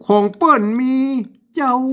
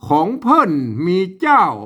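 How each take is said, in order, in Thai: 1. คำสุดท้ายมีเสียงวรรณยุกต์พิเศษแบบเหนือ 2. คำสุดท้ายมีเสียงวรรณยุกต์แบบไทยมาตรฐาน (1) "เจ้าเสียงโทพิเศษนะครับ" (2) "เอาภาษาไทยเขียนมันก็ต้องอ่านว่า ... มันไม่ได้สำเนียงเจียงใหม่"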